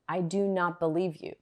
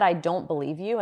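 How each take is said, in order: First: The words do not are emphasized. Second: The negation is not emphasized.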